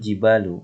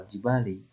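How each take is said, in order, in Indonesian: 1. Kata ini diakhiri dengan vokal u. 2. Kata ini diakhiri dengan vokal i. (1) "kenapa kata al-jibal ini diberikan harokat dhammah?" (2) "atau al-jibali"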